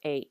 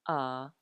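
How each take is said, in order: First: The letter is given its English name. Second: The letter is given its Hawaiian name. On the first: "In English, we know these as" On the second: "let's use the Hawaiian pronunciation"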